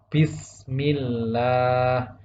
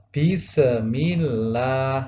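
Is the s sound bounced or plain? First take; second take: plain; bounced. First: The s is held smoothly without a bounce. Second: The s is released with an echoing bounce. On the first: The speaker calls it right. "yang benar adalah" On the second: The speaker calls it wrong. "Akan salah ketika sinnya dipantulkan menjadi qalqalah"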